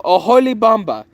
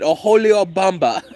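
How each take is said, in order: First: An 'ee' sound comes right before 'Bamba'. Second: An extra 'o' sound comes before 'Bamba'. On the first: The speaker calls it right. "Oh no" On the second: The speaker calls it wrong. "I think that's actually how you say it"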